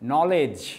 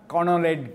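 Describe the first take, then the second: First: The word begins without a k sound. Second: The word begins with a k sound. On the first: The speaker calls it right. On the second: The speaker calls it wrong.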